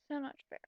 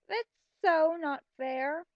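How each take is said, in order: First: "So not fair" repeated much softer, under the breath; a mocking mutter after the whine; muttered echo. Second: A slow, louder whine that leans on "that's"; whiny complaint. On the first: Shown as a demonstration. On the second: Retold or imitated. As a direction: whine like a sulky teen. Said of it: "I was thinking".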